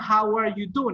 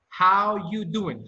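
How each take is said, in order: First: The word 'are' is clearly pronounced. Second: The word 'are' is dropped entirely. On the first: The speaker calls it wrong. "the pronunciation is not how are you doing" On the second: The speaker calls it right. "it's how you doing"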